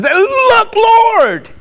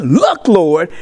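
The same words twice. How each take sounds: First: "Look, Lord" said much higher and ringing; exclaiming. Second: Said in the usual way. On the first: Retold or imitated. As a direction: cry out to the Lord in wonder. Preacher repeats the words with emphasis.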